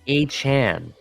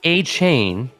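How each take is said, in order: First: The last syllable sounds like 'chan'. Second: The last syllable sounds like 'chain'. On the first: The speaker calls it right. "It's pronounced A-Chan, C H A N" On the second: The speaker calls it wrong. "is not A-Chain, as in if you're spelling a chain like C H A I N"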